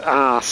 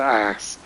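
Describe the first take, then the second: First: It is said with a long British vowel. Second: It is said with a short American vowel. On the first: The speaker calls it right. "it's best pronounced as arse over tit" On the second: The speaker calls it wrong. "It sounds a bit American if you say ass"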